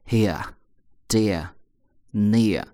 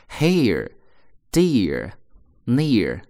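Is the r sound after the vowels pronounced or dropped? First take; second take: dropped; pronounced. First: The r after each vowel is dropped, not curled. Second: The r after each vowel is curled and pronounced. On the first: "英国人读的时候不卷舌头" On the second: "美国人有R 卷舌头"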